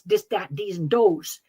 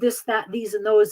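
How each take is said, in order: First: The words begin with a hard d sound. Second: The words begin with a soft th sound. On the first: "the Finns always would substitute the d" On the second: "instead of"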